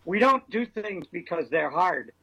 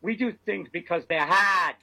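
First: Slow Boston accent, hard as hahd. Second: Boston accent, hard as hahd. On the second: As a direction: drop the r in hard, Boston style. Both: Shown as a demonstration. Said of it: "Thank you for that Boston accent".

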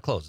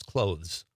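First: "clothes" said like the verb "close", without TH; everyday "clothes" rhyming with "nose"; TH dropped in clothes. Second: "clothes" with a voiced TH before the final Z; proper, careful "clothes" with the TH kept; TH sounded in clothes. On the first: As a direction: leave out the TH in "clothes". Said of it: "It's not clothes". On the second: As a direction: say every sound in "clothes", TH included. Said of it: "I'm trying to speak properly". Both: Shown as a demonstration.

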